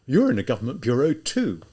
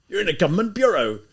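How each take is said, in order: First: Louder retort hitting You're, at usual pitch; exclaiming. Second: Loud, high, stressing bureau; livid rebuke. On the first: Student throwing the rebuke back at the lieutenant, louder. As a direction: throw the same words back at him. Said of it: "Raskolnikov exclaimed". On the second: Livid lieutenant rebuking the student, loud and high. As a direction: thunder it as an official rebuke. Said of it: "so livid". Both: Acted.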